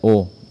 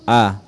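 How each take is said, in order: First: The vowel is thick and rounded like 'oh'. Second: The vowel is open with the mouth wide. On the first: The speaker calls it wrong. "sering dibaca O, itu keliru" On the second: The speaker calls it right. "Yang benar adalah A, mulut terbuka dengan lebar"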